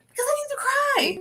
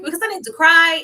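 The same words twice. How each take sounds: First: High plea. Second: Louder repeat of the line, pressing the point; firm insistence. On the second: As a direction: say it again, louder and surer. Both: Retold or imitated.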